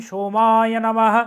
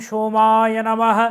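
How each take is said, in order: Both takes have the same delivery.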